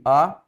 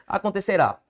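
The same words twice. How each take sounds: First: "Acontecerá" split into A, con, te, ce, rá with long pauses; "Acontecerá" broken up syllable by syllable for a class. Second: Said in the usual way. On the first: Shown as a demonstration. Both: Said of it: "Separe comigo".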